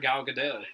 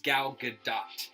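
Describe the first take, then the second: First: The final T sound is left silent. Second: The final T sound is clearly pronounced. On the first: The speaker calls it wrong. "I always just thought you didn't pronounce the T" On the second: The speaker calls it right. "Like you pronounce the T"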